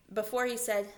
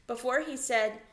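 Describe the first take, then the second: No difference in how they are said.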